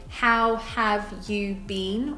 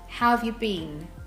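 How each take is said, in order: First: Each word is said separately, with nothing reduced. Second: How and have run together; you is reduced.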